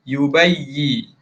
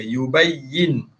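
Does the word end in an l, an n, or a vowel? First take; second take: vowel; n. First: The word ends on a vowel with no n. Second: The word ends with a clear n sound. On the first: "hilangkan sebutan nun dia yubayyi" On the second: "asal bunyi dia yubayyin"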